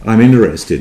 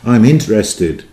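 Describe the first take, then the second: First: The T in interested is dropped. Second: The T in interested is clearly pronounced. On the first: "There, there we go" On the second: "I couldn't resist my English pronunciation, which is putting T in there"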